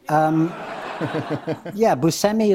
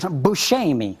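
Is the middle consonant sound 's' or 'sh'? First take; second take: s; sh. First: The middle consonant is a plain 's' sound. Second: The middle consonant is an 'sh' sound. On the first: This is the family's American way of saying it. "Buscemi is the way that my dad pronounced it" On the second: This is how it is said in Sicily. "And you have to say it like"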